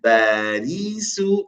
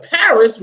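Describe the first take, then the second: First: Slow Barisu, B for P and a long ee; Arabized Paris. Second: Said in the usual way. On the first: Shown as a demonstration. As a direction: draw out Barisu, ending on oo. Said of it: "we say what?". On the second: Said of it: "we refer to it utilizing a what? Ba".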